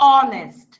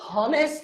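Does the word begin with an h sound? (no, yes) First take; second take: no; yes. First: The word begins with a vowel sound. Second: The word begins with an h sound. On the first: The speaker calls it right. "আমি বলতেছি অনেস্ট" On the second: The speaker calls it wrong. "তাহলে এটা কি আমি হনেস্ট বলতেছি? না"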